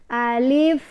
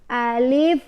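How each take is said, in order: Both takes have the same delivery.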